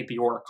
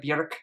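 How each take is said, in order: First: the name said to rhyme with pork, plain English vowel; anglicized. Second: the name with a rounded vowel and a rolled R; Icelandic. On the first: Vlogger showing viewers the wrong way: the name rhymed with pork. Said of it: "not to say the name like pork". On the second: Vlogger trying the Icelandic way for viewers: the name with a rolled R. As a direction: roll the R in the name, Icelandic style. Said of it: "with the rolled R and all of those things". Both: Shown as a demonstration.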